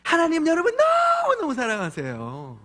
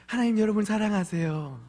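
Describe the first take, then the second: First: Much higher, sing-song sweet voice, 너무너무 stretched; kindergarten preacher voice. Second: Said in the usual way. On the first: Retold or imitated. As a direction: coo it to little children. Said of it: "유치부를 부르면". (유치부 아이들에게 하는 달콤한 목소리) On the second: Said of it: "혼내고 있는 아빠가".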